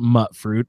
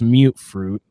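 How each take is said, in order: First: The first syllable has a short 'uh' vowel. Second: The first syllable has a long 'you' vowel. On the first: The speaker calls it wrong. "I always called it mutt fruit" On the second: The speaker calls it right. "It's mute fruit because it's like mutated"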